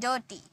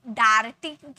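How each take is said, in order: First: The first vowel sounds like 'er'. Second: The first vowel sounds like 'ar'. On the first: The speaker calls it right. "इसे अ में pronounce किए" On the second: The speaker calls it wrong. "डार्टी बोले क्या"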